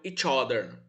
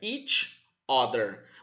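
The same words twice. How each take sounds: First: The two words run together as one word. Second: The two words are said apart, with a break. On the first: "elas se juntam formando uma palavra só" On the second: "separados, ditos separados, fica each other"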